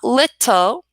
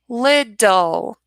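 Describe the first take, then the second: First: The middle consonant is a hard T. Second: The middle consonant is a soft D. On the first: The speaker calls it wrong. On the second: The speaker calls it right.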